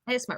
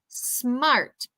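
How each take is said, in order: First: An extra vowel sound comes before the s. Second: The s starts the word with no vowel before. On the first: The speaker calls it wrong. "so you avoid saying S smart" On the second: The speaker calls it right. "really make it intentional of that S sound"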